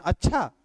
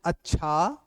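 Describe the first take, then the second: First: अच्छा in surprise, jumping up then falling; demonstrated surprise with a sharp falling end; surprised. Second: अच्छा as a question, rising at the end; questioning अच्छा with a rising tail; questioning tune. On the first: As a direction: exclaim अच्छा as if astonished. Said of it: "आश्चर्य के साथ अगर बोलते हैं". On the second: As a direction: lift the end of अच्छा to ask. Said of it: "ये प्रश्नवाचक हो गया". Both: Shown as a demonstration.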